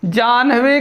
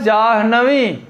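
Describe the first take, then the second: First: जाह्नवी said as jānh-vī, n first; wrong pronunciation. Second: जाह्नवी said as jāh-na-vī, h first; correct pronunciation. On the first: Teacher showing the mistake, wrong pronunciation. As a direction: put n before h in जाह्नवी. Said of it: "जाह्नवी गलत है". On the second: Teacher answering with the right word, correct pronunciation. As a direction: breathe h before n in जाह्नवी. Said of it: "शुद्ध शब्द क्या होता है?". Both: Shown as a demonstration.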